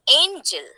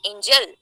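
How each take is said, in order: First: "angel" with a strong, raised AN and a falling "gel"; first-syllable stress. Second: "angel" without the raised first syllable, both syllables even; unstressed first syllable. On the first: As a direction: lean on the first syllable of "angel", drop the second. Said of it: "You will say". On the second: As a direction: say "angel" quickly, no extra push on "an". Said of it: "You will not say". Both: Shown as a demonstration.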